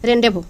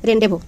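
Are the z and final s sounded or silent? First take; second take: silent; silent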